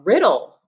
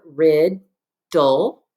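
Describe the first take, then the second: First: Riddle joined up with no gap; whole word. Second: Rid, dull as two parts with a pause between; syllable by syllable. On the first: Teacher confirming the pupils' word, Riddle said whole. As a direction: blend both syllables into one word, Riddle. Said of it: "What is your word?". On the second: Teacher giving pupils two parts to join, Rid, dull spaced apart. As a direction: separate Rid from dull, each syllable standing alone. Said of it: "put those two parts together". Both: Shown as a demonstration.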